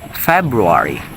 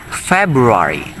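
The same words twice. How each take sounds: The two takes are said the same way.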